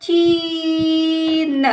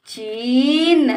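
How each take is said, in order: First: चीन with long level ची, then न; sounded out. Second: चीन joined, shorter rising ee; blended word. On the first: Teacher sounds out the word for a child, stretched. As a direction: stretch चीन apart slowly. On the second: Teacher blends the word for a child, joined up. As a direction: run चीन into one word. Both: Shown as a demonstration. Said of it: "इस तरह से बेटा हम शब्दों को".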